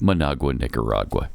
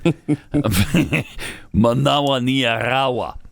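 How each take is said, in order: First: It is said in a plain English accent. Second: It is said in an exaggerated Spanish accent. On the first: "Just a fun way of saying" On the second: "such incredible Spanish on my part"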